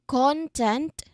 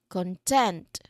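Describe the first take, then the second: First: The stress is on the first syllable. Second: The stress is on the second syllable. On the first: "first word, we are um, stressed on the first syllable" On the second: "second syllable for the second one"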